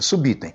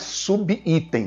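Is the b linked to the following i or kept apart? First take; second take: linked; kept apart. First: The b is linked to the following i. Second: The b is kept apart from the following i. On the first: The speaker calls it right. "é subitem" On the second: The speaker calls it wrong. "Não é subitem, não existe subitem"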